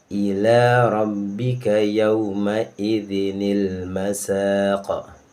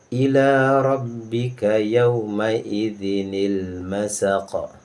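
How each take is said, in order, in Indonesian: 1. Bunyi 'ni' penyambung menghubungkan idzin ke masaq. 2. Bunyi 'ni' penyambung menghubungkan idzin ke masaq.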